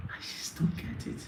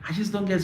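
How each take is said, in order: First: Breathy whispered exasperation, no voice at all; whispered aside. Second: Said in the usual way. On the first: Acted. Host whispering his frustration to viewers, exasperated whisper. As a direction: whisper it to yourself in disbelief.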